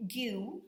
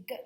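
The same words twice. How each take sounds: First: "gu" said as spelt, like "dyu"; wrong pronunciation. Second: "g" as a short hard "guh"; hard g sound. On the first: Teacher shows what we don't say for G U E, mispronounced "gu" as "dyu". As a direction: say "gu" with a "yoo" glide. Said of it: "we're not going to say". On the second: Teacher shows the sound G U E makes, hard "g". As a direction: say just the consonant sound "g", not the letter name. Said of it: "we're going to say g". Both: Shown as a demonstration.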